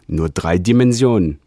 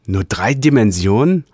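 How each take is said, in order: First: Said in the usual way. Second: Higher, rising, thrilled; delighted question. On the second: Acted. Realigator hearing the report, eager rising question. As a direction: lift nur drei Dimensionen in eager wonder. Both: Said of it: "rief der Realigator erfreut".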